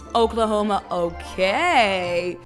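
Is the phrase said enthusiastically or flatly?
enthusiastically. It is said enthusiastically, with lively emphasis. It is top tier and impressive. The speaker calls it right. "it's all in the intonation, in the delivery"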